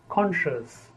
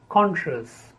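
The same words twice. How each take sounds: The two takes are said the same way.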